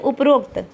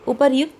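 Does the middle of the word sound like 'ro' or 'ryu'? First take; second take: ro; ryu. First: The middle sounds like 'ro'. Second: The middle sounds like 'ryu'. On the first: The speaker calls it wrong. "हम लोग क्या कहते बोल देते हैं उपरोक्त" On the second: The speaker calls it right. "उपर्युक्त जो शब्द है वह है शुद्ध"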